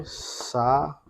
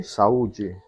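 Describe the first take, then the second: First: "Saúde" split as sa... ú... de, with pauses; teacher spacing out "Saúde" in three beats; syllable by syllable. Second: Said in the usual way. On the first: Shown as a demonstration. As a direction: separate each syllable of "Saúde". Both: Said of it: "vamos separar".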